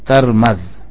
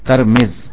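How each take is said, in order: First: Both the t and the m take an a vowel. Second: The t takes a, the m takes i. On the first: "تا اور میم دونوں پر زبر پڑھیں گے فتح کے ساتھ" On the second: "تا کو زبر کے ساتھ پڑھیں اور میم کو کسرے کے ساتھ"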